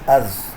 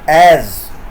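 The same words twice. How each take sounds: First: The word has a weak, reduced vowel. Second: The word has a full, strong vowel.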